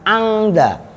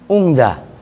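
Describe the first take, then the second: First: The first vowel is a. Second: The first vowel is u. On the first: "Boleh dibaca fathah, bunyinya angda" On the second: "Boleh dibaca dhammah menjadi ung"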